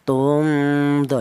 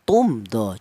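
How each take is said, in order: First: The m is hidden and blurred into the next letter. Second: The m is pronounced clearly before the next letter. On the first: The speaker calls it wrong. "jangan dibaca ifa" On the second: The speaker calls it right. "mem mati ini dibaca jelas"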